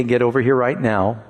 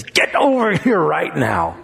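First: Said in the usual way. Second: Put-on drawn-out teasing call to a child; mother coaxing her child over, slow and teasing; slow, playful call. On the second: Shown as a demonstration. Mother calling her child, slow and playful. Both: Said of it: "a whole different response than if she says".

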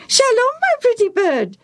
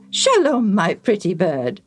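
First: Very high, piercing parrot echo; Bobo the parrot. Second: Fond greeting. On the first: Parrot repeats the priest's greeting, squawking. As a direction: mimic the greeting in a squawky bird voice. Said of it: "the parrot repeated". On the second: Priest makes friends with the parrot, fondly. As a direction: greet the bird fondly in a human voice. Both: Acted.

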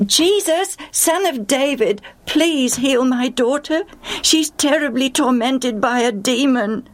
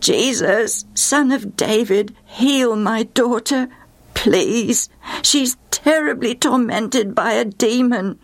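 First: Desperate mother crying out for help; excited calling out. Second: Slow, stretched-out imploring call; drawn-out plea, voice raised in pitch. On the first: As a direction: call to him urgently in a high voice. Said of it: "in her excitement, she began to call out". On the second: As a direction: draw each phrase out as you beg. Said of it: "she began to call out". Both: Acted.

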